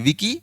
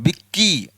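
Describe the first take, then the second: First: The first syllable is said lightly, without pressure. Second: The first syllable is pressed hard, with pressure. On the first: "विकी कोई दबाव" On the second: "उसमें दबाव आ रहा है"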